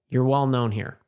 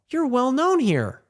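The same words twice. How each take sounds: First: The tone sounds cold and disapproving. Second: The tone sounds warm and approving. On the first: The remark is a criticism. "that's not good" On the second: The remark is a compliment. "then it's good"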